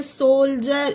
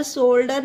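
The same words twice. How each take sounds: First: सोल्जर with a J sound for D; correct pronunciation. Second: शोल्डर with a hard D; शोल्डर, D as ड, the mistaken reading; wrong pronunciation. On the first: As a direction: say "jer" at the end of सोल्जर. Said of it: "ये होता है सोल्जर". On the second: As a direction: say "der" at the end of शोल्डर. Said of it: "पर शोल्डर नहीं होता है". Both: Shown as a demonstration.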